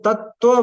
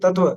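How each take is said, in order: First: The middle t sound is doubled and held. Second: The middle t sound is single and short. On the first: The speaker calls it right. "तो उसको तत्व बोला जाता है" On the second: The speaker calls it wrong. "नहीं कि तत्व"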